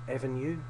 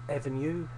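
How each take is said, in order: The two takes are said the same way.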